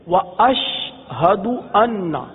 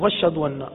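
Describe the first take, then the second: First: The glottal stop and h are clearly pronounced. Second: The glottal stop and h are dropped. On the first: The speaker calls it right. "یعنی حمزہ" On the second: The speaker calls it wrong. "بعض پڑھتے ہیں نا غلط پڑھتے"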